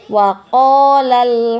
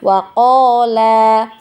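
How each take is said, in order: First: The final vowel is short, joined to the next word. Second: The final vowel is held long. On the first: The reader carries on into the next word. "maka kita baca tidak panjang" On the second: The reader stops after this word. "Huruf matnya tetap kita baca panjang dua harokat ya"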